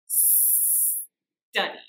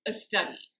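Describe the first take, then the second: First: The word starts directly with the s. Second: A vowel sound comes before the st. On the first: The speaker calls it right. "start by just pronouncing the s sound at the beginning" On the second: The speaker calls it wrong. "It's common to want to add a vowel before the st sound"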